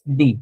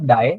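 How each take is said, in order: First: The vowel sounds like "ee". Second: The vowel sounds like "eye". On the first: The speaker calls it right. "It's डी" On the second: The speaker calls it wrong. "It's not डाई"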